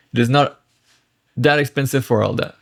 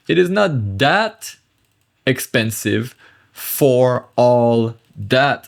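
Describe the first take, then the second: First: Quicker, joined-up repeat of the sentence; natural flow. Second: Slow, spaced-out translation with pauses; word by word. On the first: Teacher recaps the translation for learners, at natural pace. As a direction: run the translation together at talking speed. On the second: Teacher translating French for learners, slowly, word by word. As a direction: spell out the meaning one chunk at a time. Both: Shown as a demonstration.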